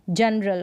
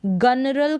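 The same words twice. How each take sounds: First: जनरल, first letter g softened to j; opening j sound in जनरल; correct soft g. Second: गनरल, g as in go; wrong hard-g reading. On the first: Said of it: "जी को यहाँ पर pronounce किया जा रहा है ज". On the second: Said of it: "गनरल करके नहीं पढ़ेंगे". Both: Shown as a demonstration.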